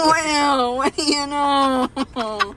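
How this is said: It is said in a slurred, drunk-sounding voice.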